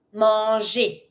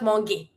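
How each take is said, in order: First: "manger" as "mon-zhay", with a soft G. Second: "manger" as "mon-gay", with a hard G; mistaken hard G. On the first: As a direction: say the G in "manger" as French J. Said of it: "G plus E makes it sound je". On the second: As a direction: misread the G in "manger" as in "go". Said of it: "Not manger". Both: Shown as a demonstration.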